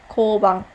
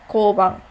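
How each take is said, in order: Both takes have the same delivery.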